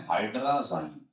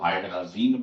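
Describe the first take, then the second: First: हाइड्राज़ाइन ending in "-zain", rhyming with "line"; alternative pronunciation. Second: हाइड्राजीन ending in a long "-zeen"; variant pronunciation. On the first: Teacher naming the compound to students, हाइड्राज़ाइन said with "-zain" ending. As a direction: say हाइड्राज़ाइन with a long "eye" in the last syllable. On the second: Teacher giving what many people say, हाइड्राजीन with "-zeen" ending. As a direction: say हाइड्राजीन with "ee" in the last syllable. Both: Shown as a demonstration. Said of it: "या कई लोग हाइड्राजीन बोलते हैं".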